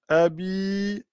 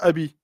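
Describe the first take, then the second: First: The final vowel is lengthened. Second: The final vowel is short. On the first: The speaker calls it right. "on va dire tabbat yada abi abi" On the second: The speaker calls it wrong. "et non pas abi"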